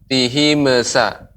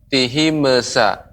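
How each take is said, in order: The two takes are said the same way.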